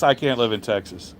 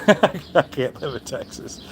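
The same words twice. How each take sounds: First: Said in the usual way. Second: Laughing, a bit slower; slow amused laughing repeat. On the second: Real, not acted. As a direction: laugh the line out, tickled by it. Repeats line, then laughs.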